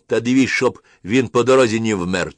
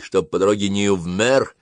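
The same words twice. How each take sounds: First: Loud order. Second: Said in the usual way. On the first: A narrator's reading. Officer's order in dialect. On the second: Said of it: "Фразу ... переняли все".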